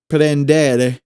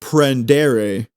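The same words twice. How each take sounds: First: "prendere" with the R's firm, almost like D's; Italian "prendere" said with firm R's; correct Italian. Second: Wrong, English-style "prendere"; wrong pronunciation. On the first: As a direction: roll "prendere" with solid, D-like R's. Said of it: "it's not". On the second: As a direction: say "prendere" with a loose, English-sounding R. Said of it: "goodness, it's not". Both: Shown as a demonstration.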